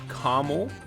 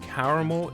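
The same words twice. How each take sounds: First: The word is said with two syllables. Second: The word is said with three syllables. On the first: The speaker calls it wrong. "It's not caramel" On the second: The speaker calls it right. "There is an A after the R"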